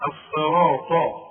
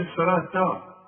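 First: الصراط slow, loud, with an emphatic final t; heavy final letter. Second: الصراط ending in a light t; wrong light ending. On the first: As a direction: draw out الصراط onto a thick t. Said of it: "الطاء برضه مفخمة". (الصراط بطاء مفخمة) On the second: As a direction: finish الصراط on ta instead of emphatic ta. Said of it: "اوعى تقول لي". (الصراط بتاء مرققة في الآخر) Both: Shown as a demonstration.

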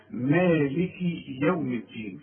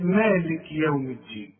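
First: مالكي with the ك carried on an i into يوم, slowly; kaf with kasra. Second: مالك with the ك stopped dead before يوم; the mistake of freezing the ك of مالك; wrong silent kaf. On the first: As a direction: link مالك with a clear i on the ك. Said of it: "اكسر الم-، الكاف". (كسر الكاف في مالك عند الوصل) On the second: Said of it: "يغلطوا فيها ويسكنها". (تسكين الكاف الخاطئ) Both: Shown as a demonstration.

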